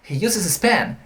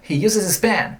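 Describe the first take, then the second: First: The th sound in 'this' is dropped. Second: The th sound in 'this' is dropped.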